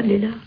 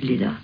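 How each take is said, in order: First: Name said higher with a gentle rise, "Lilla" lifting up; rising call. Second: Name said low and falling, "Lilla" dropping down; falling call. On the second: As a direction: let "Lilla" sink low at the end. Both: Retold or imitated. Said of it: "Gently and slowly does it".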